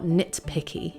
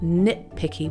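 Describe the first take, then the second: First: The T sound is clearly pronounced. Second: The T sound is dropped. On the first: The speaker calls it wrong. "so not nitpicky" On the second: The speaker calls it right. "We often drop the T sound in spoken English, ... would be more natural"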